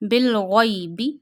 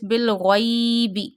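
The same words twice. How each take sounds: First: The vowel in the second word is kept short. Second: The vowel in the second word is drawn out. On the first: The speaker calls it right. "you not stretch ya or waw" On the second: The speaker calls it wrong. "But don't stretch it. Don't read like this"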